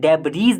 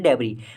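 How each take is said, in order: First: The word ends with an audible s sound. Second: The word ends without any s sound. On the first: The speaker calls it wrong. "इसे दोस्तों डेबरीज नहीं बोलते, एस नहीं लगाते" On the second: The speaker calls it right. "एस silent होता है, इसको बोलते हैं डेबरी"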